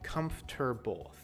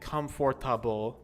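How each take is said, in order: First: It is said with three syllables. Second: It is said with four full syllables. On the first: The speaker calls it right. "we say comfortable. Three sounds" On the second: The speaker calls it wrong. "we don't say comfortable"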